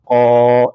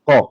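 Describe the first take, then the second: First: The vowel is held long. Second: The vowel is kept short. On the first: The speaker calls it right. "the introduction of this alif mad now will now turn it to what? Qa" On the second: The speaker calls it wrong. "It will not be qa"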